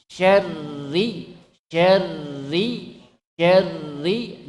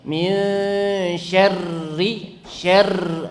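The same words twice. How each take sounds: First: Syarri with one short tap on the r; light r. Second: Min syarri with the r rolled long and heavy; wrong heavy trill. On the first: Teacher showing students the correct light r. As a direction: model syarri with only a little vibration. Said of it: "Tetap getarannya sedikit". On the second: Teacher showing students the wrong over-trilled r. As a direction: demonstrate syarri with too many r vibrations. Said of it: "tidak boleh baca begini". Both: Shown as a demonstration.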